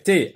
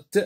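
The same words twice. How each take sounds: First: "t" said as the letter name "té"; name the letter "t" with a clear é vowel; the wrong way, "t" as alphabet "té". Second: "t" as the bare sound "te"; the right way, "t" sounded instead of named; phoneme sound. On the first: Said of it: "On va pas dire t". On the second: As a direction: say "t" as a consonant with only a faint schwa. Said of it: "on va dire le son t". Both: Shown as a demonstration.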